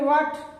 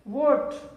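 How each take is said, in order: First: The vowel sounds like 'aa'. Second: The vowel sounds like 'o'. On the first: The speaker calls it wrong. "Normal पढ़ने में बोलेंगे वाट" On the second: The speaker calls it right. "लेकिन होता है वोट"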